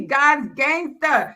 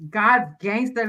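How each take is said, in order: First: God's gangster drawn out very slowly, a bit higher, each word weighted; slow emphatic motto. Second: Said in the usual way. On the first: Shown as a demonstration. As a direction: spell out God's gangster slowly like a creed to remember. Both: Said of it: "Write that down".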